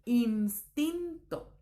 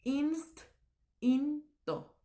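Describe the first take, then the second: First: "instinto" slowly as ins... tin... to; measured, separated "instinto": ins-tin-to; correct syllable split. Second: "instinto" broken slowly as inst... in... to; very slow "instinto", pausing after inst; wrong syllable split. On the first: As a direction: break "instinto" after the s, t starting the next syllable. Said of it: "tiene que ser así". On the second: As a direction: pile the t onto the first syllable of "instinto": inst-in-to. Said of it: "No puede ser". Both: Shown as a demonstration.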